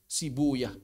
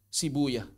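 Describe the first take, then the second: No difference in how they are said.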